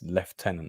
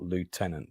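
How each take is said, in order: First: The word is said the British way. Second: The word is said the American way. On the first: The speaker calls it right. "it's like it's lieutenant" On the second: The speaker calls it wrong. "not lieutenant. Stop Americanizing it"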